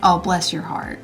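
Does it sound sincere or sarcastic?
sarcastic. It sounds mocking and insulting.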